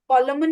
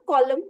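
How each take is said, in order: First: The final n is sounded. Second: The final n is silent. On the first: The speaker calls it wrong. "कॉलमन नहीं बोलते" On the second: The speaker calls it right. "कॉलम बोलते हैं ना"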